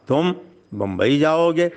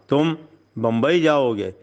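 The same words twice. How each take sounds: First: It sounds mocking and full of disbelief. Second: It sounds like a firm, authoritative order. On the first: The listener is deemed unable to go. "कहाँ तुम और कहाँ बम्बई, तुम बम्बई कैसे जा सकते हो?" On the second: The listener is being ordered to go. "गोया आप हुक्म दे रहे हैं कि तुम्हें बम्बई जाना है।"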